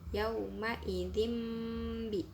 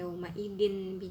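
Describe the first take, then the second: First: The word before bi ends in an m sound. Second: The word before bi ends in an n sound. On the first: The speaker calls it right. "tapi yauma idim bi" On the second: The speaker calls it wrong. "bukan yauma idin bi jahannam"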